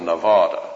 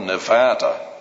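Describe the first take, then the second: First: It uses the Eastern pronunciation of the word. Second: It uses the Western, local pronunciation of the word. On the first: This is the form held to be correct. The speaker calls it right. "but it's really Nevada. We people back here in the East know better" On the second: This is how locals or radio speakers say it. The speaker calls it wrong. "I heard someone the other day keep saying over the radio, Or maybe those Nevadans pronounce it that way"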